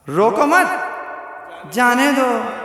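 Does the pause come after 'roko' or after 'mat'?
after mat. The pause comes right after 'mat'.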